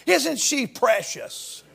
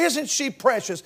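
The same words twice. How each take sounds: First: Put-on soft, slow cooing over a baby; tender cooing. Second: Put-on soft cooing over a little girl; tender cooing. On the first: Preacher cooing over a little girl, soft and slow. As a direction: coo it like to a child in arms. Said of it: "like we would talk to a little child". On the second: Preacher admiring a little girl, softly cooing. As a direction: say it gently, like admiring a baby. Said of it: "about a little girl, we'd say".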